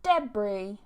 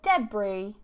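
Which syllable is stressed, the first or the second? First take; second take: first; first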